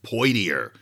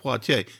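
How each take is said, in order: First: The name is said with English sounds. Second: The name is said with French sounds. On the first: The name would have come from early English speakers. "it would be like Poitier or something like that" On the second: The name came from French. "not Poitier"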